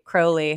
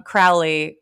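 First: "Crowley" with first syllable like the bird crow. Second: "Crowley" with first syllable like cow; Crowley rhymed with cow. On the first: Offering listeners the other way to say it, "Crowley" like crow. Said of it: "I like crows". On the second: Offering listeners one way to say the name, "Crowley" rhymed with cow. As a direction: say "Crowley" as CROW-lee with an OW as in how. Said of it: "however you like to say it". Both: Shown as a demonstration.

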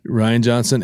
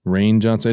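First: Rian Johnson with Rian as Rye-an; corrected name Rian, Rye-an. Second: Rian Johnson with Rian as Ray-an; first guess at the name Rian, Ray-an. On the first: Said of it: "Yeah, yeah, Rian Johnson". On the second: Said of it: "is it Ryan or Ryan Johnson?". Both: Shown as a demonstration.

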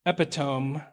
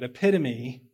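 First: "epitome" misread as EP-ih-tome; "epitome" stressed on the first syllable, silent final e. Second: "epitome" said eh-PIT-uh-mee; "epitome" ending in a sounded "mee"; corrected pronunciation. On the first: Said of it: "read that word that way before". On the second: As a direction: say "epitome" in four syllables, stress on PIT. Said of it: "it's easy to read it that way". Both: Real, not acted.

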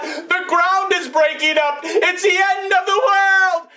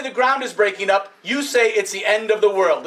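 First: Rising panic, as if the world is ending; frightened rabbit yelling the alarm; panicked rabbit. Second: Said in the usual way. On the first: Acted. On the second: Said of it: "whenever I say".

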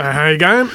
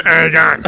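First: Aussie drawl of "How you going?" with teeth in; broad Australian, teeth-in version; teeth-in Aussie accent. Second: Toothless Australian "How you going?", louder; mock gummy Aussie, half laughing; teeth-out Aussie accent. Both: Shown as a demonstration. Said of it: "There's teeth in and teeth out".

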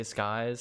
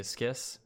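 First: "Skies" rhyming with "eyes"; alternate pronunciation. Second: "Skis" rhyming with "kiss"; alternate pronunciation. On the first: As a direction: say "Skies" with a long eye vowel and a z ending. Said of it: "some people say Skies". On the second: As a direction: say "Skis" with a short i and an s ending. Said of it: "some people say Skis". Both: Shown as a demonstration.

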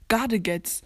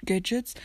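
First: Gadgets said "GAH-de-gets", falling; own pronunciation of Gadgets. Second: Gadgets said "GED-jets", rising; English pronunciation of Gadgets. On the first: Player shows his correct Gadgets, said gah-de-gets. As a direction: spell out Gadgets German-style, gah-de-gets. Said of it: "So ist es richtig". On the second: Player rejects the usual Gadgets, said ged-jets. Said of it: "Das heißt nicht". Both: Shown as a demonstration.

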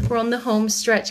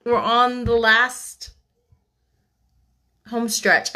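First: Said in the usual way. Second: Slow, stretched emphasis on last; drawn out. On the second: Real, not acted. Reader telling listeners the book is almost done, drawn out. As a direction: savor the words slowly. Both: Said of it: "I almost said".

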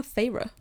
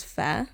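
First: Feyre in two syllables, FAY-ruh; audiobook pronunciation. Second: Fair as one syllable, like a funfair; assumed pronunciation. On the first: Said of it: "they call her". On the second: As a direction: say "Fair" to rhyme with hair. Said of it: "I always thought her name was". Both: Shown as a demonstration.

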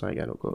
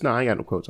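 First: Low, quiet throwaway; softer repeat. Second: Said in the usual way. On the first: Real, not acted. Host asks for quotes, mumbled reply. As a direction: drop it almost under your breath. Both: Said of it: "and quotes?".

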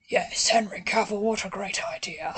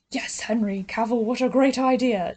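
First: "what a great idea" dropped into a whisper; imitating an actor lowering his voice to sound old; mock gravitas that sinks into a whisper; low, fading to a whisper. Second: Said in the usual way. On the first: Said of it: "he just lowers his voice". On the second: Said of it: "went from going like".

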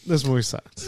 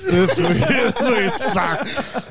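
First: Said in the usual way. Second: Said through a high laugh. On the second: Real, not acted. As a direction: laugh your way through it, slowly.

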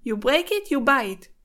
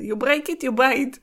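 First: English with a thick Israeli accent. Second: English retake, Israeli accent fixed; corrected English accent. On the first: Real, not acted. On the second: Shown as a demonstration. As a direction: redo it in cleaner English. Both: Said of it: "יצא לי במבטא ישראלי כזה".

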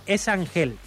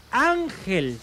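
First: Ángel mispronounced with stress on the final syllable, an-HEL; stress on last syllable. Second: Ángel stressed on its first syllable, AHN-hel. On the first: Host mocks the name without accent, Ángel stressed last. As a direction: shift the stress in Ángel to its end. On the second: Host shows listeners the accented name, Ángel stressed up front. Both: Shown as a demonstration. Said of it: "Si no lleva acento".

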